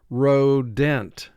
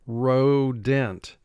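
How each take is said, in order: First: The second syllable has a clear, full vowel. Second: The second syllable has a clear, full vowel.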